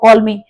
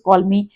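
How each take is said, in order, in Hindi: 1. यह कठोर और गुस्से वाले लहजे में कहा गया है। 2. यह गर्मजोशी और स्नेह भरे लहजे में कहा गया है। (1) "गुस्से से बोला हो" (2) "प्यार से बोला हो"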